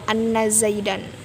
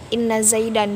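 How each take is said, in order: First: The first word starts with an 'a' vowel. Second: The first word starts with an 'i' vowel. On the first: The speaker calls it wrong. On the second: The speaker calls it right. "wajib dibaca kasroh"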